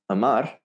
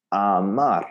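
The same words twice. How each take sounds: First: "amar" as quick uh-MAR; schwa mistake. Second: "amar" with a full ah in both syllables; solid Spanish A. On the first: Teacher repeats the learners' error, "amar" with a schwa. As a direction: open "amar" on a reduced English uh. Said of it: "I almost have to exaggerate it". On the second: Teacher corrects the schwa, "amar" with solid ah vowels. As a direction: open "amar" on a clear ah, never uh. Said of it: "It's gotta be a". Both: Shown as a demonstration.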